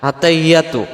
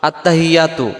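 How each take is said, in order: No difference in how they are said.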